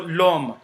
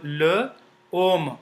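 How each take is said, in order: First: The two words run together as one. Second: The two words are kept apart.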